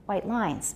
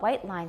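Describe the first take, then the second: First: The second word carries the main stress. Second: The first word carries the main stress. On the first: It is an adjective plus noun, not a compound. The speaker calls it right. "because it's not a compound" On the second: It sounds like a compound noun. The speaker calls it wrong. "sounds weird"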